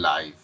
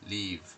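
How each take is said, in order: First: The vowel is an ai diphthong. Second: The vowel is a short i sound. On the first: It is used as an adjective. "যখন adjective হিসেবে আ- আসবে তখন এটা হয়ে যাবে লাইভ" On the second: It is used as a verb. "এটা যখন আপনার ভার্ভ হিসেবে হয় তখন এটা আপনার উচ্চারণ হবে লিভ"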